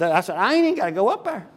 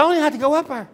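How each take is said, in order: First: Said in the usual way. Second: Pitched much higher with mock insistence; emphatic high retort. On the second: Preacher retelling his insistent reply to the business owner, pitched much higher. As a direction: shoot the line up high and insist.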